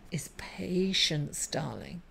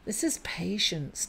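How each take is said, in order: First: Breathy whisper, slow and hushed; soft whisper. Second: Said in the usual way. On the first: Real, not acted. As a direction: lean in and whisper it like a secret. Leans in on the key message.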